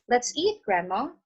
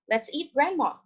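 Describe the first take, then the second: First: There is a pause before Grandma. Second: It runs straight on without a pause.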